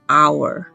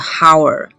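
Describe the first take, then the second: First: The word starts directly with the vowel. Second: The word starts with an audible h sound. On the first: The speaker calls it right. "不是，是hour" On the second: The speaker calls it wrong. "而不是hour"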